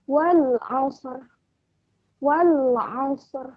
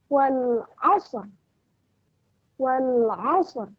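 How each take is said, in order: Both takes have the same delivery.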